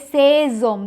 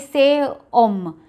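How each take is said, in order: First: An s sound links the two words together. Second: The two words are not linked by an s sound. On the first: The speaker calls it right. "We say says om. There's a liaison" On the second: The speaker calls it wrong. "we don't say say om"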